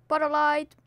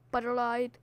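First: Said in the usual way. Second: Potter light said softer; a quiet repeat of the chant; soft catchphrase. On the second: Shown as a demonstration. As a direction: drop the volume on the catchphrase.

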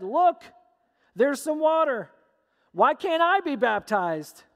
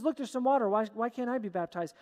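First: Higher, louder burst of eager discovery; excited plea. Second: Said in the usual way. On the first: Acted. Eunuch spots water and asks Philip for baptism, excited. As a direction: call it out eagerly, pitched up.

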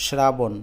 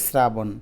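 First: শ্রাবণ with initial "shr", as spelt; sh pronunciation. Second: শ্রাবণ with initial "sr", as commonly spoken; s pronunciation. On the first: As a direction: say শ্রাবণ as "shrabon". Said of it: "উচ্চারণ হওয়ার কথা কিন্তু". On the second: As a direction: say শ্রাবণ as "srabon". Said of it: "আমরা বলি". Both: Shown as a demonstration.

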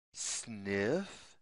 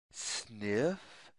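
Both takes have the same delivery.

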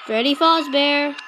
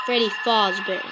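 First: Freddy Fazbear said clearly, louder; said right. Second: Freddy Fazbear with a low, mangled Freddy; said wrong on purpose. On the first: Correcting himself, Freddy Fazbear said properly. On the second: Deliberately mispronouncing Freddy Fazbear to himself. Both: Shown as a demonstration. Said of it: "I wanna say it wrong".

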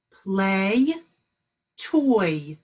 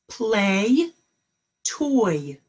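Both takes have the same delivery.

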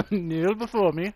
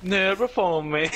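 First: Echoing it through a laugh. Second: Dark lord. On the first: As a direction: laugh the command back. Echoes villain line, laughing. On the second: Mock villain command, laughing. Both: Pretend.

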